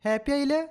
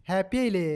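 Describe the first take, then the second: First: happy ആയില്ലേ asked again much higher in pitch; higher sing-song coax to a baby; high coaxing repeat. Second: Said in the usual way. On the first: Acted. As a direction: lift the whole question up high, teasing the baby.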